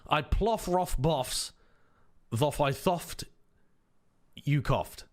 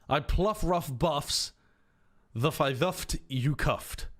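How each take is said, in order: First: Every 'ough' is said with an 'off' sound. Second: Every 'ough' is said with an 'uff' sound. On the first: "let's use the pronunciation for cough" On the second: "Or do you use the pronunciation for rough?"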